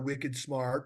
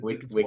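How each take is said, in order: First: It is said in the speaker's ordinary accent. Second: It is said in a put-on Boston accent.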